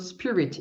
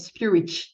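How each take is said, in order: First: The final t is soft, with no extra sound. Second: The final t ends with an added ch-like sound. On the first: The speaker calls it right. "Ele falou spirit... a pronúncia dele está muito bom" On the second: The speaker calls it wrong. "Ele não inventou um som que não tem... ele não falou algo parecido com spirit"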